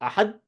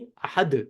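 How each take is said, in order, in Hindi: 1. आख़िरी d बिना उछाल के सपाट रुक जाता है। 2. आख़िरी d हल्की गूंज के साथ उछलता है। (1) "अहद नहीं" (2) "आवाज टकराती है पहाड़ों से तो वापस आती है"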